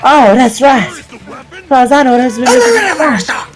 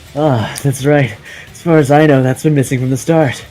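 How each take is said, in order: First: It is said in a Southern Belle accent. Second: It is said in a plain voice.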